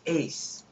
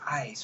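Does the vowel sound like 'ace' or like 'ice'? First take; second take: ace; ice. First: The vowel sounds like the one in 'ace'. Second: The vowel sounds like the one in 'ice'. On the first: The speaker calls it right. "E is ace" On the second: The speaker calls it wrong. "I learned it as ice for 40 years"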